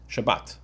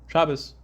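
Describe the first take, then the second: First: The word ends with a t sound. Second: The word ends with an s sound.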